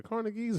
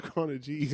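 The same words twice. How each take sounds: First: "Corner G's" said as Carnegies, with a hard g; "Corner G's" with G as in "geese"; hard-g pronunciation. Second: "Corner G's" with the G said like "jeez"; "Corner G's" ending in a soft g; soft-g pronunciation. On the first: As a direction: say "Corner G's" as "KOR-nuh-geez". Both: Shown as a demonstration. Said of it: "Is it the Corner G's or Corner G's".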